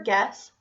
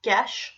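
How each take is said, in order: First: Said in the usual way. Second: "gesh" ending in SH in place of S; "gesh", a child's misarticulated "guess". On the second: Shown as a demonstration. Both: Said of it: "sh phoneme for S".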